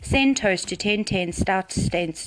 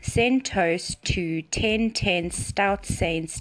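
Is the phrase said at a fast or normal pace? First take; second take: fast; normal. First: The phrase is said at a fast pace. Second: The phrase is said at a normal pace.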